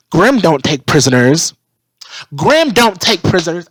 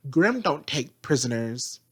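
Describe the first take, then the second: First: Mock yelling the line louder each time; mocking loud repeat. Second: Said in the usual way. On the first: Mocking Vine's stubborn line with a loud repeat. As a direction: bellow it back to mock him. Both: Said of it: "And, and Vine's like".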